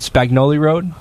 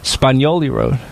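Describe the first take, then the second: First: The g and n are sounded separately. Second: The gn is said as one ny sound. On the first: The speaker calls it wrong. "I was pronouncing it wrong. ... But I thought it was called" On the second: The speaker calls it right. "it's actually"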